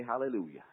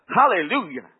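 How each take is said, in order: First: Said in the usual way. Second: Joyful hallelujah. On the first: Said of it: "began to say". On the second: Retold or imitated. First hallelujah, loud.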